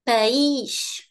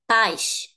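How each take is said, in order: First: The stress falls on the vowel i. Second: The stress falls on the vowel a. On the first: It means country. "is here i" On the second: It means parents. "the highest part of the word is here in the a"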